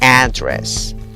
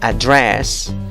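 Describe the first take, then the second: First: The stress is on the first syllable. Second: The stress is on the second syllable. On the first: "la segunda opción muestra que la fuerza de voz también puede ir en la primera sílaba" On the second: "el apóstrofe muestra de que la fuerza de voz puede ir en la segunda sílaba"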